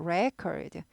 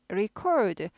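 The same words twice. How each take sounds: First: Record stressed on RE, with an e sound; noun stress. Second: Record with ri- weak and stress on -cord; verb stress. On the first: Teacher showing the noun stress. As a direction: say record as RE-cord. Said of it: "액센트 받을 때는 에 발음". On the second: Teacher showing the verb stress slowly. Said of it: "액센트 있을 때는 record고요". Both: Shown as a demonstration.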